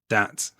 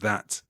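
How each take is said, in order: First: The word begins with a d sound. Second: The word begins with a th sound. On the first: "T H's at the beginning of words tend to become D's" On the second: "instead of that"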